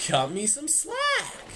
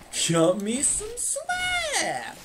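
First: Said in the usual way. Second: High, very slow squeak; high squeaky voice. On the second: Shown as a demonstration. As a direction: stretch it out in a tiny squeak.

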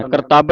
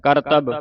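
First: ਕਰਤਬ with a long final vowel, "kartaab"; mistaken reading. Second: ਕਰਤਬ with short vowels, "kartab"; soft pronunciation. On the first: Teacher warning students of a misreading, ਕਰਤਬ as "kartaab". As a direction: stretch ਕਰਤਬ open to "kar-taab". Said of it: "ਕਰਤਬ ਨਹੀਂ ਪੜ੍ਹਨਾ". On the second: Teacher showing students the reading, ਕਰਤਬ softly as "kartab". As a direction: say ਕਰਤਬ lightly, short final "a". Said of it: "ਕਰਤਬ ਪੋਲਾ ਪੜ੍ਹਨਾ". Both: Shown as a demonstration.

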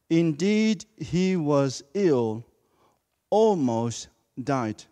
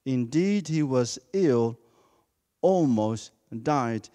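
First: Slowed, weighty, every word leaned on; emphatic scripture reading. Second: Slow, each word given weight; emphatic reading of the verse. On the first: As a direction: read it slowly, pressing each word. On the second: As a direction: let the words land heavily. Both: Shown as a demonstration. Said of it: "Emphasize those words".

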